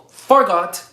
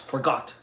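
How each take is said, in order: First: The stress is on the first syllable. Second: The stress is on the second syllable. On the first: "the accentuation was on the A, on the on the first O" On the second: "wasn't said with a with a with accentuation as "forgot.""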